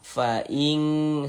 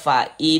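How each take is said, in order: First: The n sound is blurred toward a nasal ng. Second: The n sound is pronounced clearly and distinctly. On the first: The speaker calls it right. "disamarkan... lebih condong berbunyi eng" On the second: The speaker calls it wrong. "Jangan kita baca fa in in innya tuh terbaca jelas seperti itu jangan"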